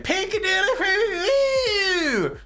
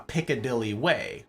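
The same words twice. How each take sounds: First: It is said in a put-on voice. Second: It is said in a normal voice.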